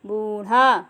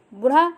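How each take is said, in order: First: बूढ़ा with a long drawn ऊ; correct long ऊ in बूढ़ा. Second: बूढ़ा with a short clipped first vowel; wrong short u in बूढ़ा. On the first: Teacher giving students the right form of बूढ़ा. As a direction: lengthen the first vowel of बूढ़ा. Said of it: "बूढ़ा सही है". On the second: Teacher giving students the wrong form of बूढ़ा. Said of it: "बूढ़ा गलत है". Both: Shown as a demonstration.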